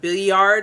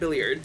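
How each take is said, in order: First: The double L sounds like a Y. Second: The double L is a plain L. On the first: "there's two L's and therefore it sounds like a Y" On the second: "we're calling it billiard"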